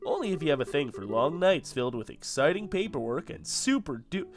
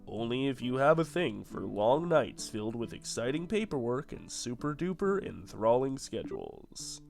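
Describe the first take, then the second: First: It is said with an expressive, varied tone. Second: It is said in a flat monotone.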